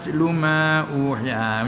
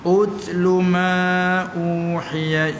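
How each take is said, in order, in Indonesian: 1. Kata ini menyambung ke kata sebelumnya tanpa vokalnya sendiri. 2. Kata ini dimulai dengan vokal 'u' sendiri. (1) "kalau nak kena baca wasal, nak tak ada... Tak ada lah baris hamzah tu" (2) "Mana nak start semula. Utsluma, ha mula dengan ut"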